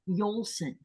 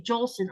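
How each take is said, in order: First: The name begins with a Y sound. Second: The name begins with a J sound. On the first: The speaker calls it right. "It's actually it's actually Yolson" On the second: The speaker calls it wrong. "That's not the way it's said"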